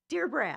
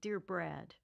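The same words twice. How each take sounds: First: It is said louder and firmer. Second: It is said very softly.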